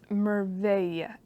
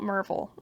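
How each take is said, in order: First: The word ends without a clear L sound. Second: The word ends with a clear L sound. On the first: The speaker calls it right. "It's Merveille H" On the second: The speaker calls it wrong. "Not Mervel"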